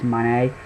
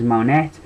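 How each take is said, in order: First: The name ends without any T sound. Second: The name ends with a clear T sound. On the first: "I don't think they pronounce the T" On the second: "you could pronounce it as Monette"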